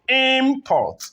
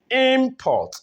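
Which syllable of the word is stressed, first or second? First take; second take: first; first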